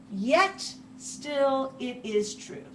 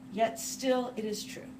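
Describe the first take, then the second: First: Slow, with weight on yet; stressed restatement. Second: Said in the usual way. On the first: Shown as a demonstration. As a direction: lean on yet and still, unhurried.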